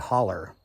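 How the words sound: It is said the Appalachian way, ending in an er sound.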